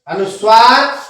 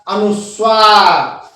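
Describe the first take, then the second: First: Said in the usual way. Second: अनुस्वार slow, split as "anus... vaar"; drawn-out syllables. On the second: Shown as a demonstration. Teacher announcing the next topic, slow and syllabic. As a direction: stretch अनुस्वार out with a falling end.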